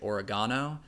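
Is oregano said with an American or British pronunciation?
British. It is said with a British pronunciation. "specifically in the UK, say oregano"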